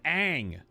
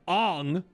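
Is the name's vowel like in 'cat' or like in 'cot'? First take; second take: cat; cot. First: The vowel sounds like the one in 'cat'. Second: The vowel sounds like the one in 'cot'. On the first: This is the original way the name is said. The speaker calls it right. "His name is Aang" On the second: This is the changed way the name is said. The speaker calls it wrong. "you change the way his name is pronounced of the protagonist to Ong"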